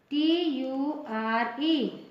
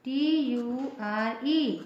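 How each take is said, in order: Both takes have the same delivery.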